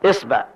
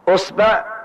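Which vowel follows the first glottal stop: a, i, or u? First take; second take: i; u. First: The first vowel is i. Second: The first vowel is u. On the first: "نأخذ كسر الهمزة" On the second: "ثم نأتي ضم الهمزة فنقول أصبع"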